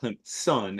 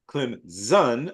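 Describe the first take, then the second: First: The middle consonant sounds like an s. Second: The middle consonant sounds like a z. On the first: The speaker calls it wrong. "not Clemson, as in as a big ball of gas" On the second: The speaker calls it right. "almost as if it were a Z"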